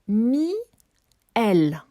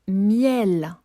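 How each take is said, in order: First: The word is split into two separate syllables. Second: The word is said smoothly as one unit.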